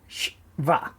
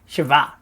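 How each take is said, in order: First: The first two consonants are joined without a vowel. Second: A short vowel separates the first two consonants. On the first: "instead of shva" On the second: "a short E sound to mean shava, like that"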